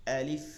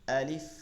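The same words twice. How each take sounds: No difference in how they are said.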